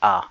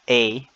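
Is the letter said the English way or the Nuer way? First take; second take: Nuer; English. First: The letter is said with its Nuer sound. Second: The letter is said with its English sound. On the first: "but this is A" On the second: "In English, I think you can pronounce it like"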